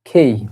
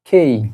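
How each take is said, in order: Both takes have the same delivery.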